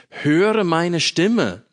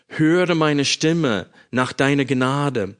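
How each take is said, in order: First: "Höre" pitched high and loud, the whole phrase drawn out very slowly; urgent plea. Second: Slow, even reading of "Höre meine Stimme nach deiner Gnade"; scripture reading. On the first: Shown as a demonstration. Preacher voicing the psalmist's cry to God, high, slow and pleading. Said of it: "die Betonung auf sein Geschrei". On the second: Acted. Preacher reading the verse to his congregation, calm and solemn. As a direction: read "Höre" as a steady plea, not pushed. Reads Psalm aloud before sermon.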